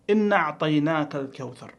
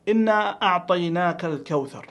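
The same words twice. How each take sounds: First: "إنا أعطيناك" run together as innaʕtaynak; misreading, dropped letter. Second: "إنا أعطيناك" with long ā, then a clear hamza; correct reading. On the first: Teacher imitating a mistake, "إنا أعطيناك" merged without hamza. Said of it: "فينقص حرفًا". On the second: Teacher reciting correctly, full hamza in "أعطيناك". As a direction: sound both "إنا" and the a- of "أعطيناك" separately. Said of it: "ثانيًا قوله تعالى". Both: Shown as a demonstration.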